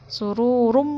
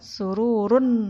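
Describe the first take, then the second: First: The word ends with an m sound. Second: The word ends with an n sound. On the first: The speaker calls it right. "Sururum marfu'ah" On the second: The speaker calls it wrong. "bukan sururun"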